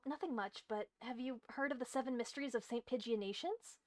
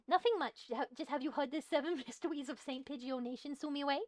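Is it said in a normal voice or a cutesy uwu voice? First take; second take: normal; uwu voice. First: It is said in a normal character voice. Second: It is said in a cutesy uwu voice.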